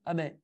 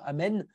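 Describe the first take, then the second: First: The final n sound is dropped from the word. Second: The word is said complete with every sound. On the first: The speaker calls it wrong. "comme si je zappais la dernière lettre" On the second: The speaker calls it right. "au lieu de dire Amen"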